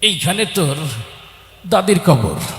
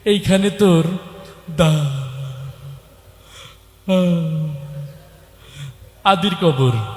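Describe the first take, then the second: First: The line is recited in a fidgety, distracted voice. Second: The line is recited with stuttering and repeated sounds. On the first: The reciter is distracted by itching. "এরকম একটা চুলকানি রোগী আসছে" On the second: The reciter struggles to get words out. "একটু তোতলা"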